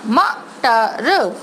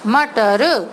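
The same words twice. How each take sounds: First: मटर stretched letter by letter, very slowly; slow sounded-out word. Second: मटर said whole at normal speed; blended word. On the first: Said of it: "letter ... उसका sound slow बोल रही हूँ". (मटर को अक्षर-अक्षर खींचकर धीरे बोलना) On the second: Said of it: "तीनों को मिला के". (मटर को एक साथ मिलाकर बोलना) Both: Shown as a demonstration.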